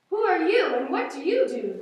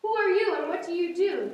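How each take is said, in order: First: Loud, rough roaring question; mock lion roar. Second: Kind, friendly higher question; very nice voice. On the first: Lions confronting the cow with a loud mock roar. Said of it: "The lions roared". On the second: Acted. Zebras kindly greeting the crying cow in a nice voice. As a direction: ask it gently, like a new friend. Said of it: "came a very nice voice".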